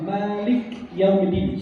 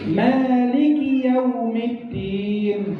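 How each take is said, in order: First: The word ends in 'k' with no vowel. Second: A short 'i' vowel follows the 'k'. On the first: The speaker calls it wrong. "Banyak orang salah baca" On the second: The speaker calls it right. "kafnya ada kasrah bukan sukun"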